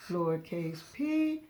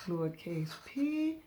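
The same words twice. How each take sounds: The two takes are said the same way.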